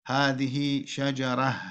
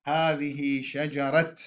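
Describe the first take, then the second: First: Slow "هذه شجرة" ending in breathed h; pausal ha. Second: Slow "هذه شجرة" ending in t; pausal ta. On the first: Teacher showing the purer stop, "هذه شجرة" with final h. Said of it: "الوقف بإبدالها هاء". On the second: Teacher quoting some Arabs, "هذه شجرة" with final t. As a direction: stop on "هذه شجرة" as shajarat. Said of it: "يقف بالتاء". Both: Shown as a demonstration.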